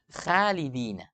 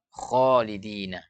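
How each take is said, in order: First: The first sound is thin, tongue root lowered. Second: The first sound is thick, tongue root raised. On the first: The speaker calls it wrong. "Tidak boleh baca" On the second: The speaker calls it right. "maka harus tebal"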